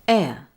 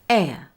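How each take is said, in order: The two takes are said the same way.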